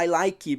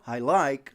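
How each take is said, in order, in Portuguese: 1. Um som de vogal extra "ee" é acrescentado no final. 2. Ela termina limpa, na última consoante. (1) "não precisa falar I like" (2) "porque ele fala I like"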